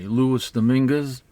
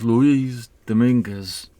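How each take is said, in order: First: The name is said with English pronunciation. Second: The name is said with Spanish pronunciation. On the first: The speaker calls it wrong. "I always pronounce his name the Amer- uh, the English way" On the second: The speaker calls it right. "he's right though. It is pronounced Luis Dominguez"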